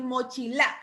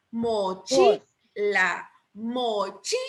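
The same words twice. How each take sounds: First: Mochila with the stress wrongly on the last syllable, mochi-LÁ; acento equivocado en LA. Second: Mochila very slowly with the stress on CHI; acento en CHI. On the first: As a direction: push the force onto the final LA. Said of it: "suena feo". (mochila con la fuerza en la última sílaba, mochi-LÁ) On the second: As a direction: draw out mo-CHI-la, punching CHI. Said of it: "porque chi lleva la mayor fuerza de voz". (mochila lento, con la fuerza en CHI) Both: Shown as a demonstration.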